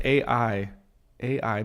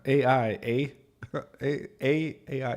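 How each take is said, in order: First: A I said slowly and carefully, letter by letter. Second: Playful Canadian A I, eh? with a lifted eh; mock Canadian. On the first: Shown as a demonstration. Correcting the Canadian A R to a clear A I. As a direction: spell out A I so it cannot sound like A R. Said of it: "when you say A I, it sounds like A R". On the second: Teasing himself as a Canadian, a light mock Canadian accent. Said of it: "my Canadian accent".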